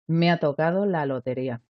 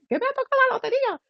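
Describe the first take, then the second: First: It is said flatly, without much energy. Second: It is shouted excitedly with a high pitch.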